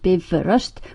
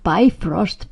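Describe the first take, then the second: First: It is pronounced the Icelandic way. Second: It is pronounced the English way. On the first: The speaker calls it right. "pronounced Bifröst" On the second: The speaker calls it wrong. "By all means, not Bifrost, please"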